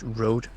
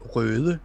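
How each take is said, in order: First: It is said like the English word road. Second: It is said with a Danish vowel and ending. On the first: "I don't read it as road" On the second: "I read it as røde, which means red in Danish"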